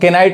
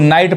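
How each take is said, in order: First: The word begins with a k sound. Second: The word begins with an n sound. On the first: The speaker calls it wrong. "अब इसको केनाइट नहीं कहेंगे" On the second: The speaker calls it right. "यहां पे इसको नाइट पढ़ेंगे"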